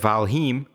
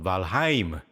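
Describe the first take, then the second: First: The name is said with an anglicized pronunciation. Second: The name is said with a Nordic-style pronunciation. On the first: The speaker calls it wrong. "which is totally fucking wrong" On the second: The speaker calls it right. "It's called Valheim, right? Because it's Nordic"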